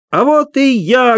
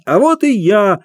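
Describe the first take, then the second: First: High slow ringing shout; loud shout. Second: High shout, clown voice; loud shout. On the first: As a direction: burst onstage with a cry. (громкий высокий выкрик) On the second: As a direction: call out to the crowd. (громкий клоунский крик) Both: A narrator's reading. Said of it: "громко крикнул хозяин".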